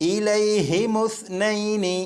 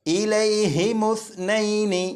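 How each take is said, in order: Both takes have the same delivery.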